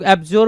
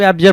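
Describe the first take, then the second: First: एब्ज्योर with a long o, "AB-jor"; rounded -jor ending. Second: एब्जर with a neutral short vowel, "AB-jer"; short -jer ending. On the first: Teacher quotes how some people read it, एब्ज्योर with -jor. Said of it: "कुछ लोग एब्ज्योर पढ़ते हैं". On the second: Teacher quotes how others read it, एब्जर with short -jer. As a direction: end एब्जर on a quick "-jer". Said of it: "कुछ लोग एब्जर पढ़ते हैं". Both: Shown as a demonstration.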